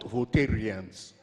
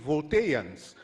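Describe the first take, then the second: First: An r sound is heard before the ending. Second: No r sound is heard before the ending. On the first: The speaker calls it wrong. "not Voltarians" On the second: The speaker calls it right. "There is no R in Volta"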